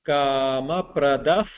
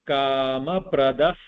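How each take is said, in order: No difference in how they are said.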